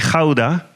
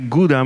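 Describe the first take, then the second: First: It is pronounced the Dutch way. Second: It is pronounced the French way.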